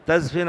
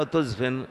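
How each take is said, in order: First: تزفن said "tazfin", with an A after the T; silent-vowel Z and short I after F in تزفن, "taz-fin"; first-vowel A reading. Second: تزفن said "tuzfin", with a U after the T; silent-vowel Z and short I after F in تزفن, "tuz-fin"; first-vowel U reading. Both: Shown as a demonstration. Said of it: "بسكون الزاي وكسر الفاء وبضم".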